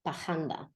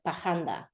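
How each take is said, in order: First: The R is dragged, sounding like an h. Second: The R is dragged, sounding like an h.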